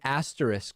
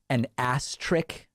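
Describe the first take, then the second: First: The word is pronounced the common way. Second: The word is pronounced an odd, different way.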